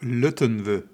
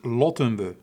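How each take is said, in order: First: The first vowel sounds like 'u'. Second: The first vowel sounds like 'o'. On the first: The speaker calls it wrong. "je hebt het altijd over lutten we" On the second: The speaker calls it right. "Maar het is lotten we"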